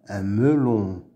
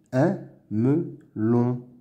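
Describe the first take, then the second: First: Said in the usual way. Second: "Un melon" slowly as "un", "me", "lon"; syllable by syllable. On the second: Shown as a demonstration. Teacher sounding out words to read, "Un melon" in slow pieces. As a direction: pause after each syllable of "Un melon". Reading drill, split then blended.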